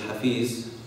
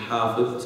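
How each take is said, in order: First: The final consonant is a plain z sound. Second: The final consonant is a voiced th-like sound. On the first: The speaker calls it wrong. "usually mispronounced as hafiz" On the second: The speaker calls it right. "is actually hafiz"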